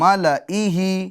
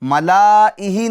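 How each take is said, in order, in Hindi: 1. ल के बाद का स्वर छोटा है। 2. ल के बाद का स्वर लंबा है। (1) "इसी तरीके से" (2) "मलाइही नहीं है"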